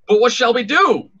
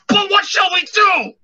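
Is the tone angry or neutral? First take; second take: neutral; angry. First: It is said in a plain, neutral tone. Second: It is said in an angry tone.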